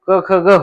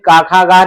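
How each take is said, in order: First: Each letter ends with a short a vowel. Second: Each letter ends with a long aa vowel. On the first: The speaker calls it right. "क ख ग होता है" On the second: The speaker calls it wrong. "कभी का खा गा नहीं होता"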